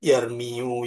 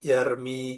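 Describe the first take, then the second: First: The word ends with an added -yu syllable. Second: The word ends in a plain long i sound. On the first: The speaker calls it wrong. "Bukan dibaca" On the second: The speaker calls it right. "semuanya dikira-kirakan"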